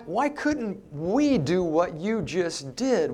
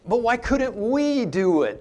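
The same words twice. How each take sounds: First: Said in the usual way. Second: We said higher and leaned on hard; stress on we. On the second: Shown as a demonstration. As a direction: punch the word we, pitch jumps up. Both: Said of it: "we" here in the Greek is emphatic".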